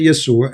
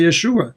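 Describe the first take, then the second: First: Yeshua with s for sh, "Yesua"; Arabic pronunciation. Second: Yeshua with a clear sh; Hebrew pronunciation. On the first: Showing a caller the Arabic form, Yeshua said "Yesua". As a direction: say "Yeshua" as ye-SOO-a. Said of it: "in Arabic, as an example, we say". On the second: Showing a caller the Hebrew form, Yeshua with sh. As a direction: say "Yeshua" as ye-SHOO-a. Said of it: "In Hebrew, they say Yeshua". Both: Shown as a demonstration.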